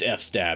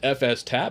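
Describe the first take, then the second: First: It is said as two parts, eff-stab. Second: It is said as three parts, eff-ess-tab. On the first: "F stab sounds amazing" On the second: "file system tab is why people say F S tab"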